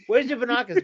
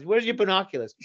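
First: Higher and louder rising taunt; mock question pushed up; teasing, higher repeat. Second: Teasing question. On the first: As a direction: press the tease harder. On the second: Retold or imitated.

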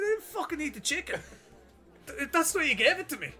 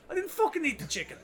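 First: High-pitched, indignant mock yell; angry retort. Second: High-pitched, indignant mock yell at the counter; angry retort. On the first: Customer insists to the worker he was given it, high indignant mock yell. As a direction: throw it back at him, voice up high. Retold argument at chipper counter. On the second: Drunk customer tells chipper worker he didn't eat it, indignant high mock yell. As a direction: protest it, voice shooting up high.

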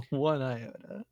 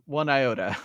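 First: Laughing, a bit slower. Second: Said in the usual way. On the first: Shown as a demonstration. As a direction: chuckle the words out.

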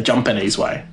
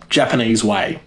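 First: "Japanese" said as "Jumpanese"; auntie's pronunciation. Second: Said in the usual way. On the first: Retold or imitated. Imitating auntie's way of saying it, "Japanese" as "Jumpanese". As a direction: say "Japanese" like auntie, "JUM-puh-neez". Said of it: "as my auntie would say".

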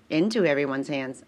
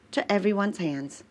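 First: Into said lower and firmer; stress on Into. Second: Said in the usual way. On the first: Shown as a demonstration. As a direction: correct it to Into, stressed.

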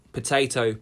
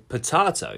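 First: "potato" said puh-TAY-toh; the usual TAY sound in "potato"; long A in potato. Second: "potato" said puh-TAH-toh; broad TAH sound in "potato". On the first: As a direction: say "potato" with AY in the middle. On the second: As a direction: say "potato" with AH in the middle. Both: Shown as a demonstration. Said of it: "So I Googled potato, potato".

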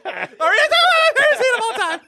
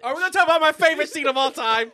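First: Very high, fast squeal; hammed-up frenzied shriek through laughter; over-the-top excitement. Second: High, fast eager question; mock excitement. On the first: Repeats the question, escalated. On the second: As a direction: rush it out excitedly. Excited lead-in to favorite scene.

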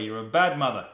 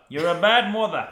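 First: Said in the usual way. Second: Louder, higher mock reprimand; mock scolding, louder and higher. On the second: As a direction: scold her in a hammed-up louder voice. Repeated louder as joke scolding.

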